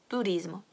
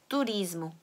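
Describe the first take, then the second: The two takes are said the same way.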